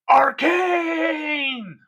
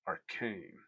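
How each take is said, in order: First: The word is said loudly and drawn out. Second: The word is said quietly and plainly.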